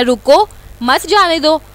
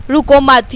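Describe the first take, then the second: First: रुको set apart by a pause, then मत जाने दो as one phrase; pause after रुको. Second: रुको मत run together as one phrase; no pause before मत. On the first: Teacher showing the "stop him" reading, pausing after रुको. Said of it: "यानी कि ठहर जाओ और जाने ना दो". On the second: Teacher showing the "don't stop" reading, रुको मत said unbroken. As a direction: join मत straight onto रुको, with no break between. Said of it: "यानी ना रुको और जाने दो". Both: Shown as a demonstration.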